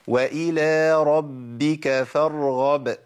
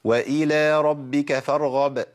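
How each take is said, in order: First: The doubled b is held as two sounds. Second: The doubled b is rushed into one sound. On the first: The speaker calls it right. "أنا جبتها مظبوطة كده" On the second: The speaker calls it wrong. "طب الخطأ"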